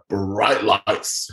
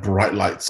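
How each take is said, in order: First: Bright lights stretched very slowly in wonder; slow, awed bright lights; drawn out in awe. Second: Said in the usual way. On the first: Shown as a demonstration. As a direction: savor bright lights like a dazzling sight. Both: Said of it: "repeats bright lights".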